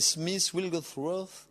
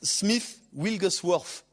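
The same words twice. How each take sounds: First: It is said in an English accent. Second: It is said in a Cockney accent.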